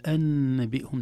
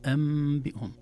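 First: أنبئهم said anbihum with a plain n; clear nun. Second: أنبئهم said ambihum with the n becoming m; nun turned to mim. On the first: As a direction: pronounce the nun in أنبئهم openly as a mistake. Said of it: "لا نقول". (إظهار النون في أنبئهم) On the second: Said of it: "نقول". (قلب النون ميما في أنبئهم) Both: Shown as a demonstration.

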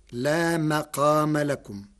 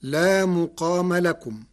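First: مقام said with fatha on the mim, maqam; Warsh reading. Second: مقام said with damma on the mim, muqama; Hafs reading. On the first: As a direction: say لا مقام لكم with an a after the mim. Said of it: "بفتح الميم". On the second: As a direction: recite لا مقام لكم with a u after the mim. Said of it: "قرأ ورش كلمة مقام". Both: Shown as a demonstration.

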